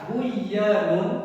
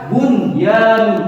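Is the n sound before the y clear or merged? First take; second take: merged; clear. First: The n sound is merged into the y. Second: The n sound is clearly heard before y. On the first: The speaker calls it wrong. "Ini kenapa tidak dibaca buyanun?" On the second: The speaker calls it right. "harus dibaca de terang, Tetap harus dibaca bunyanun"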